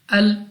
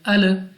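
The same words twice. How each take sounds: First: The final L ends cleanly without an echo. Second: The final L ends with a bouncing echo. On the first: The speaker calls it right. "connect them just once" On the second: The speaker calls it wrong. "don't say by bouncing voice like"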